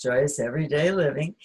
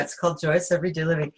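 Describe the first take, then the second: First: Title said clearly at an easy pace; slower repeat. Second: Rushed, words run together; too fast. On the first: Author repeats her book title after rushing it, slower. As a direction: restate the title unhurried, lifting at the end. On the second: Co-host rushes through her book's title, too fast. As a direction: rattle off the title quickly. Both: Real, not acted. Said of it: "I said that so fast".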